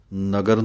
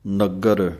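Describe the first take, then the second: First: ਨਗਰ said flat, without the adhak; the mistaken ਨਗਰ with a short, loose g; ਨਗਰ without the doubled stop; wrong way. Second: ਨਗਰ with a held, doubled g; ਨਗਰ with the stop held on the g; with adhak. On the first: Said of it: "ਨਗਰ ਨਹੀਂ ਕਹਿ ਦੇਣਾ". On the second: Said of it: "ਅੱਧਕ ਦੇ ਨਾਲ ਬੋਲਣਾ ਹੈ". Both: Shown as a demonstration.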